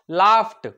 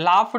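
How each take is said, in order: First: The ending is said with a t-like sound. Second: The ending is said without a t-like sound. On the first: The speaker calls it right. "थोडासा ड आणि ट सारखा उच्चार" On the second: The speaker calls it wrong. "लाफ्ड नाही म्हणायचं"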